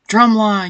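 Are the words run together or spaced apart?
run together. The words are run together quickly and plainly. The speaker calls it wrong. "You can't just say drumline"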